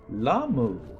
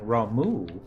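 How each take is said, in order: First: The name begins with an L sound. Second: The name begins with an R sound. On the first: "they always switch their R's with their L's" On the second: "instead of being Ramu"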